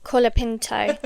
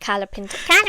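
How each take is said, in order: First: The first syllable sounds like 'cola'. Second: The first syllable sounds like 'cala'. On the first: The speaker calls it right. "Colapinto, not Calapinto" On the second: The speaker calls it wrong. "not Calapinto"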